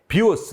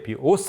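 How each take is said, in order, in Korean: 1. 강세는 첫 번째 음절에 있어요. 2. 강세는 두 번째 음절에 있어요. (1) "강세가 앞에 비오스 하면 활" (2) "강세가 뒤에 비오스 하면 생명이라는 뜻"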